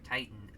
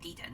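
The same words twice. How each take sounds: First: The name is pronounced the plain English way. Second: The name is pronounced the Spanish way. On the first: "just regular Titan" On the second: "if uh, you want to pronounce it how it's uh, how it is as far as it's characterized"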